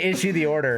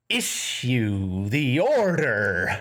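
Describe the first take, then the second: First: It is said plainly, like a normal person. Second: It is said in an odd, unnatural way.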